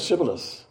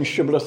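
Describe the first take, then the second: First: "Sibboleth" opening on "s" instead of "sh"; mispronounced s sound. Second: "Shibboleth" opening on a clear "sh"; correct sh pronunciation. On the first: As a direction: say "Sibboleth" without the h in the first sound. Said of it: "they said Sibboleth". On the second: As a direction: say "Shibboleth" with the hushing sound first. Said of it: "Instead of saying Shibboleth". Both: Shown as a demonstration.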